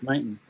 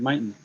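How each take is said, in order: The two takes are said the same way.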